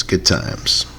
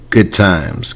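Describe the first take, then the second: First: "good times" breathed out in a whisper. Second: Said in the usual way. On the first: Shown as a demonstration. Host reminiscing to listeners in a wistful whisper.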